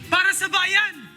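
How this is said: It sounds angry and forceful.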